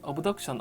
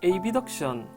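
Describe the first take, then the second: First: The start is one short syllable, ab. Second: The start is spelled out as letter names A-B. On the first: The speaker calls it right. "정확한 발음은 어브덕션" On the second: The speaker calls it wrong. "일부 발음을 에이비덕션, 어덕션이라고 뭐 하기도 많이 하는데요"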